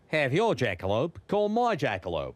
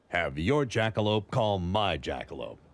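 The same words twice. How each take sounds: First: It is said in an Australian accent. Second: It is said in the speaker's normal accent.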